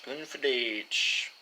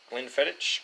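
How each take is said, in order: First: "Glenfiddich" drawn out slowly, syllable by syllable; slow careful Glenfiddich. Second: Said in the usual way. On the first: Shown as a demonstration. Vlogger fixing his pronunciation, slow deliberate "Glenfiddich". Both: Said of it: "Words are hard".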